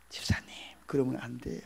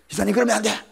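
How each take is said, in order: First: It is said in a gentle, polite tone. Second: It is said in a harsh, commanding tone.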